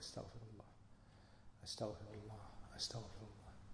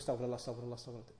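First: It is said slowly and calmly. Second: It is said fast and hurriedly.

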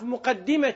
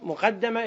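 First: The doubled d is followed by an i vowel. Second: The doubled d is followed by an a vowel. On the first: Something that went ahead by itself. "فيكون بالكسر" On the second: Something that was placed in front by someone. "اسم مقدمة اسم مفعول"

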